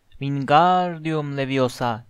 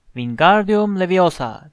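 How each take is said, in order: First: "Wingardium" with the gar stretched out long. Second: Drawn-out, mildly shouted spell; shouting. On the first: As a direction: say "Wingardium Leviosa" slowly, lengthening the gar. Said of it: "Garı uzatacaksın". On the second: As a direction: call out "Wingardium Leviosa" slowly and forcefully. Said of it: "diye bağırıyordu". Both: A narrator's reading.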